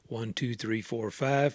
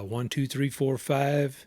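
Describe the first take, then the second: First: The low frequencies are filtered out. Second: The low frequencies are left in. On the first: "this is a low cut filter on" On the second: "with the uh, low cut filter turned off"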